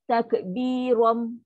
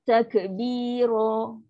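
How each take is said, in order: First: The word ends with closed lips on an m. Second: The word ends on a short, open vowel. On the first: The speaker calls it wrong. "tutup mulut" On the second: The speaker calls it right. "bunyi dia takbiro"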